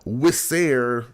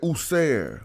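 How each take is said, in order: First: The word begins with a w consonant. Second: The word begins with an oo vowel. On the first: The speaker calls it wrong. "we don't say Wisser" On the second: The speaker calls it right. "We say User"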